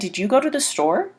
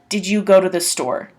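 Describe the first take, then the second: First: The voice rises higher at the end. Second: The voice does not rise at the end. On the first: It makes clear it is definitely a question. "you can put the uh, higher voice at the end" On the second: The word order alone shows it is a question. "if you just said"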